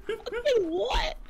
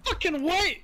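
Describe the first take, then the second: First: High, slow laughing mock snap; mocking defensive. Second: Sharp, high defensive snap. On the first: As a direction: parrot it back defensively, laughing. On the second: Real, not acted. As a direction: bristle back fast. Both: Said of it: "you sounded so defensive so quick".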